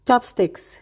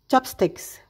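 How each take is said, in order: Both takes have the same delivery.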